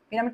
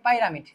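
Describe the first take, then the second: First: The first syllable sounds like 'pee'. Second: The first syllable sounds like 'pie'.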